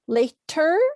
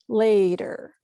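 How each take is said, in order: First: The middle consonant is a clear T. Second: The middle consonant sounds like a D.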